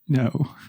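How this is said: The word is said softly and warmly. It feels pleasant and uplifting. "the second one made my head all tingly"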